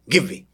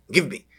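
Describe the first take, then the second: No difference in how they are said.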